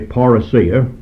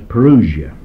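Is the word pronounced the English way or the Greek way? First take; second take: Greek; English. First: The word has its Greek pronunciation. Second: The word has its usual English pronunciation. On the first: "I'm dealing with the Greek word, and therefore I will say parousia" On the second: "You may have heard it English, and men will pronounce it as parousia"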